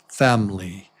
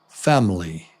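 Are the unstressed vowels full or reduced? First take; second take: reduced; reduced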